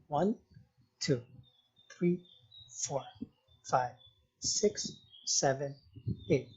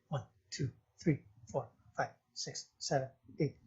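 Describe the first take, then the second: First: It is counted slowly and evenly. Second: It is counted quickly.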